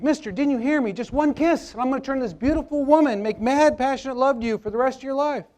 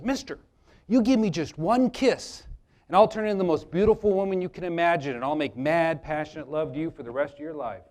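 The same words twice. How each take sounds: First: High-pitched, urgent repeated plea; insistent talking frog. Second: Lightly voiced frog making a seductive pitch; talking frog's offer. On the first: Acted. Frog repeating its ignored offer to Bob, high and insistent. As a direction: press the offer harder, pitched way up. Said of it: "frog looks him in the eye and says". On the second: Frog promising Bob love for a kiss, coaxing. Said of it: "the frog looks at Bob. He says".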